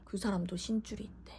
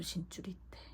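First: Said in the usual way. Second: Hushed secretive whisper. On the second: Retold or imitated. Telling the shaman in a secretive whisper.

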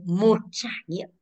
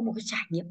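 First: "một trải nghiệm", slow and weighted on một; slow right down to stress each word of "một trải nghiệm"; emphatic repeat. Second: Said in the usual way. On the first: Shown as a demonstration. Teacher correcting a translation, "một trải nghiệm" slowly emphasized.

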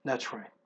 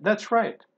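First: "That's right" dropped low and much softer; quiet confirmation. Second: "That's right" pitched high and bright with a lift; upbeat praise. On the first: Real, not acted. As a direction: murmur it under the breath. Teacher confirming answer. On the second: Acted. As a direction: cheer the answer on with a high voice. Teacher praising correct answer.

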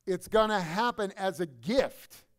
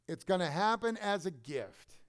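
First: Slow, louder, weighing each word; slow emphatic. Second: Said in the usual way. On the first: Shown as a demonstration. Preacher driving the point to the congregation, slow and firm. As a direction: press it home slowly and firmly. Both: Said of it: "repeats the line".

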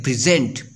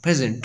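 First: present as a verb, pri-ZENT; last-syllable stress. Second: present as a noun, PRE-zent; noun stress. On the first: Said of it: "Stress on last syllable". (Present के आखिरी syllable पर stress) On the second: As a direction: stress the first syllable of present. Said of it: "ऊपर noun है". (Present के पहले syllable पर stress) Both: Shown as a demonstration.

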